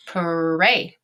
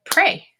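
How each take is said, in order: First: "Pray" drawn out in separate sounds; sounded out. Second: Said in the usual way. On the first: Shown as a demonstration. Teacher modeling for students, "Pray" broken into sounds. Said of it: "tap this word out and say it". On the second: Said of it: "and say it".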